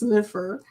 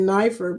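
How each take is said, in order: First: The first vowel is a short 'ih'. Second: The first vowel sounds like 'eye'. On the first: The speaker calls it right. "but it's Niffer" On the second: The speaker calls it wrong. "I've been saying Nifer"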